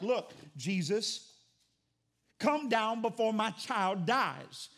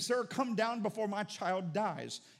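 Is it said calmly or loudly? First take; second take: loudly; calmly. First: It is said loudly and urgently. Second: It is said calmly, at normal volume.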